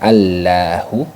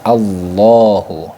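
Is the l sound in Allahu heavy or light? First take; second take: light; heavy. First: The l sound is light and thin. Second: The l sound is heavy and thick. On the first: The speaker calls it wrong. "bukan dibaca" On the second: The speaker calls it right.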